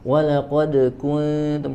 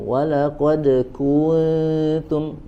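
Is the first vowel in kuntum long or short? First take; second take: short; long. First: The u vowel in kuntum is kept short. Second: The u vowel in kuntum is drawn out long. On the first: The speaker calls it right. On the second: The speaker calls it wrong. "Lahan masuk ke dalam lahan jali karena kita telah menambah huruf di situ"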